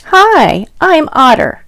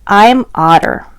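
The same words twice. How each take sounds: First: Higher, friendly little otter greeting; Otter introducing himself. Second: Said in the usual way. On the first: Acted. Otter greeting the reader, higher and friendly. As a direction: say hello as the small otter. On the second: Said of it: "This one's called".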